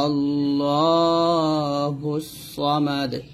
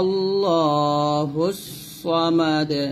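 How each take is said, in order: Both takes have the same delivery.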